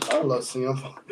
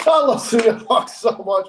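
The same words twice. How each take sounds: First: Said in the usual way. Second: High, loud fan adoration; gushing. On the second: Real, not acted. Fan declaring love for a favorite wrestler to co-hosts, gushing. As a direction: gush it with helpless delight, pitched up.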